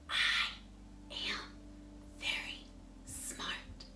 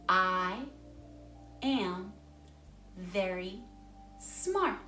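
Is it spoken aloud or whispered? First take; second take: whispered; aloud. First: It is spoken in a whisper. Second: It is spoken in a normal voice.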